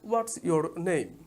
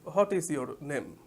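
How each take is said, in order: First: What and is are joined into one contracted word. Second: What and is are said as two separate words. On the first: The speaker calls it right. "আমরা শুনবো হোয়াটস your name" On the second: The speaker calls it wrong. "আমরা ইংলিশে বলি"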